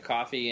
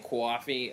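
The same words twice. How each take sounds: First: It is said in a general American accent. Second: It is said in a New Jersey accent. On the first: "in any other American accent" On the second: "like some Jersey woman"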